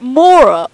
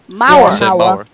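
First: The first vowel does not sound like 'ow'. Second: The first vowel sounds like 'ow' in 'ouch'. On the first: The speaker calls it wrong. "Is it Mora or" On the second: The speaker calls it right. "like ow and ouch"

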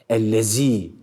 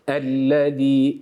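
First: The middle consonant is a sharp buzzing z. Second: The middle consonant is a soft lisped th-sound. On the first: The speaker calls it wrong. "keskin Z" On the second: The speaker calls it right. "Burada peltek olan Z harfi var"

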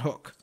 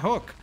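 First: The word is pronounced in the normal way. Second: The word is pronounced in an odd way. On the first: The speaker calls it right. "That's how you say it, no?" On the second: The speaker calls it wrong. "That's how I always say it, but I don't know why. It sounds like I'm saying it weird"

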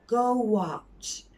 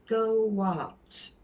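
First: A w-like sound links the two words. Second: A w-like sound links the two words.

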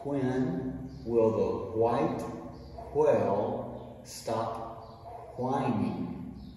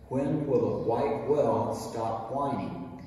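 First: It is said slowly. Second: It is said fast.

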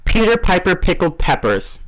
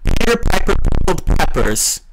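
First: The p sounds are clean without air bursts. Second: The p sounds make loud bursts of air. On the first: The speaker calls it right. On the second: The speaker calls it wrong. "Didn't sound very good"

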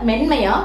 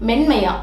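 The two takes are said the same way.

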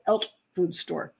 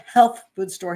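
First: The h is dropped, in a Jamaican accent. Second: The h sound at the start is pronounced.

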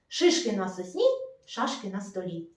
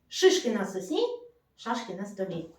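The two takes are said the same way.

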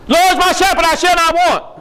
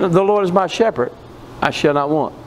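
First: It is read in a panicked voice. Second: It is read in a calm voice.

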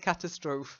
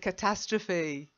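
First: The word has a German-like pronunciation. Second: The word has an English pronunciation. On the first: The speaker calls it wrong. "So the German pronunciation or Austrian pronunciation comes out" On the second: The speaker calls it right. "It's a catastrophe"

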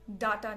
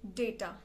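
First: The first vowel is an 'ah' sound. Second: The first vowel is an 'ay' sound. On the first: The speaker calls it wrong. "डाटा नहीं" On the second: The speaker calls it right.

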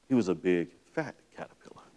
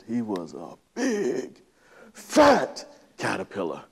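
First: The phrase is read in a plain, even voice. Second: The phrase is read with heavy, dramatic emphasis. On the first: "I'll try to read it to you verbatim" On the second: "I read it with a lot of emphasis"

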